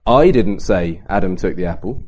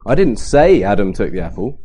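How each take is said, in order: First: "I" stressed, the rest of the sentence lower; emphasis on "I" meaning someone else said it. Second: "say" leaned on, the rest lower; emphasis on "say" meaning it was thought, not said; stress on say. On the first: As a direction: punch "I" so others are implied. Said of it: "Well, who did?". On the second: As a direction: hit "say" as if it was only thought. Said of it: "but I thought it". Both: Shown as a demonstration.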